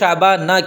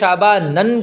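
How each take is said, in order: First: The word ends with a plain -a. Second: The word ends with the sound -an. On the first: The speaker calls it right. "इस वजह से इसको शाबाना कहते हैं" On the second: The speaker calls it wrong. "गैर मुनसरिफ़ पर तनवीन भी नहीं आती, इसलिए इसको शाबानन कहना भी गलत है"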